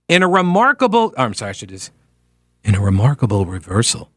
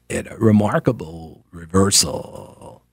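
First: The voice is smooth and clear, like a broadcaster. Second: The voice is creaky, with vocal fry. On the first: It imitates an older style of public radio. "that's old school NPR" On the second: It imitates the current style of public radio. "it's the vocal fry effect that they all do"

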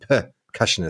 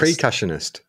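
First: The first syllable is said as 'per'. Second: The first syllable is said as 'pre'. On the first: The speaker calls it right. "when it's actually percussionist" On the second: The speaker calls it wrong. "I always say percussionist"

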